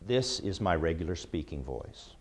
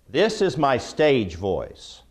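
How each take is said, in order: First: It is said in a normal conversational voice. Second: It is said in a loud, projected voice.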